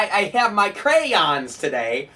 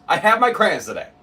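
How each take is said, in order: First: Slow, higher "crayons" as CRAY-ONS; mock "crayons" with two drawn-out syllables, rising; mocking pronunciation. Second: "crayons" in one syllable, CRANS; preferred pronunciation. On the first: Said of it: "Not crayon". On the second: Shown as a demonstration. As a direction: insist on "crayons" as CRANS, higher. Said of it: "No, crayons".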